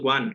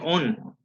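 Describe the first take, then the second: First: The word begins with a w sound. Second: The word begins directly with a vowel. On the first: The speaker calls it right. "Recordemos one" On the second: The speaker calls it wrong. "Tú dijiste on"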